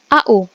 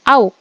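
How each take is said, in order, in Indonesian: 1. Setiap huruf dibaca secara terpisah. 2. Dibaca sebagai satu suku kata. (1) "lambang unsurnya adalah A U" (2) "bukan dibaca Au"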